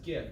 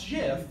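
First: It begins with a hard g sound. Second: It begins with a soft j sound. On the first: It sounds like the word gift. The speaker calls it right. "Just like the word gift" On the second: It sounds like the name of a peanut butter. The speaker calls it wrong. "It is not GIF, because if we are talking about GIF, we'd be talking about peanut butter"

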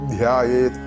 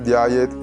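First: The first consonant is said with strong aspiration. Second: The first consonant is said without aspiration. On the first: The speaker calls it right. "ധ നേരത്തെ പറഞ്ഞതാണ് മഹാപ്രാണ്" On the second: The speaker calls it wrong. "വെറും ധ്യായേത് എന്ന് ചൊല്ലിയത് കൊണ്ടായില്ല"

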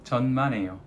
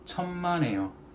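First: The first consonant is a Russian-style sound. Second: The first consonant is a Korean-style sound. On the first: It sounds like a swear word. The speaker calls it wrong. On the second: It means 'not at all'. The speaker calls it right.

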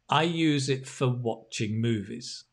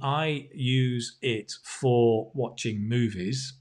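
First: The word 'for' is reduced to a weak form. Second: The word 'for' is said in its full form. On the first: The speaker calls it right. "normally that becomes for" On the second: The speaker calls it wrong. "which is a bit like how the robots speak"

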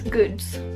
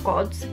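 First: The vowel sounds like the one in good. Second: The vowel sounds like the one in god. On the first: The speaker calls it right. "it's goods" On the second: The speaker calls it wrong. "it's not gods"

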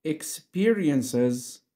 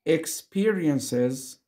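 No difference in how they are said.

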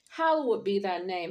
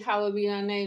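First: It is said slowly and with reverence. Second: It is rattled off quickly and carelessly. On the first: The words are meant and honor the one addressed. The speaker calls it right. "That means something, and your words mean something" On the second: The words are recited without thought. The speaker calls it wrong. "Don't say that like haphazardly"

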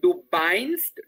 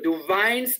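First: The verb begins with a b sound. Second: The verb begins with a v sound. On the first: The speaker calls it wrong. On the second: The speaker calls it right.

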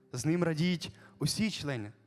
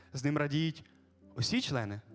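Both takes have the same delivery.

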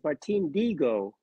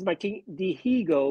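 First: The H in the surname is silent. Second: The H in the surname is pronounced. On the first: The speaker calls it right. "you don't pronounce the H. So it's Martin Diego. That's how you say it in Cuba" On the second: The speaker calls it wrong. "everybody says Martin Diego"

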